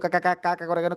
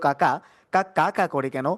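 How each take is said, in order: First: The line is spoken fast. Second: The line is spoken slowly. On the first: "এরপর দ্রুত।" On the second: "প্রথম ধীরে"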